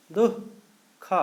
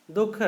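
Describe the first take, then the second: First: दुख broken in two, दुः, pause, ख; very slowly sound out दुख syllable by syllable; visarga demonstration. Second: Said in the usual way. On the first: Shown as a demonstration. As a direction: split दुख after the breathy visarga, then say ख alone. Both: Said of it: "जैसे बोलेंगे क्या?".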